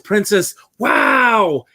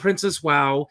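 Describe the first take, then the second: First: It is said excitedly, like an exclamation. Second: It is said flatly, without excitement.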